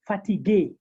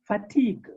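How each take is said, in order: First: Fatigue said in three syllables, "fa-tee-GAY"; sharpened final E. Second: Fatigue ending on the g, "fa-TEEG"; mute final E. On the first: Teacher puts the accent back, fatigue ending in "ay". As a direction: end fatigue on a sounded French é. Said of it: "the moment we put the accent". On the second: Teacher shows word without accent, fatigue with silent ending. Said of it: "the E is totally mute". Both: Shown as a demonstration.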